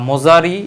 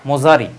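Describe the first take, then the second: Both takes have the same delivery.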